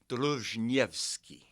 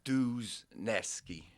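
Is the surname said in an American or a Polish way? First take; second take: Polish; American. First: The surname is said with a Polish pronunciation. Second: The surname is said with an American pronunciation. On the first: This is the original ethnic form of the name. "That that's the Polish pronunciation" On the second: This is how the family has always said it. "Americanized, we've always said Duzneski"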